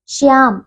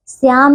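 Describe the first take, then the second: First: श्याम with a clear sh: shyaam; correct pronunciation. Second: श्याम with s for sh: syaam; mispronunciation. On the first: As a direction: hush the first sound of श्याम. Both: Shown as a demonstration. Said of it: "श्याम नहीं".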